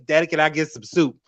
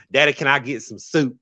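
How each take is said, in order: First: Put-on recreate the Southern kid voice from home videos; childhood Southern accent. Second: Put-on childhood Southern accent. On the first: Recalling her childhood, a little girl's Southern accent. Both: Shown as a demonstration. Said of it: "I had a very strong Southern accent".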